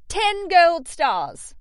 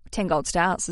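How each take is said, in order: First: Slow, loud, high Australian drawl of ten gold stars; proud Australian cheer; Australian accent. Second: Said in the usual way. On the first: Shown as a demonstration. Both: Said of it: "as I'd say with my Australian accent".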